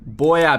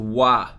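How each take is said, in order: First: It is said in full as two syllables. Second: It is squeezed into one short syllable. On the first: "Boya becomes wa" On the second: "Boya becomes wa"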